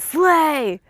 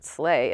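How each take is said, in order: First: It is said excitedly, like an exclamation. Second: It is said flatly, without excitement.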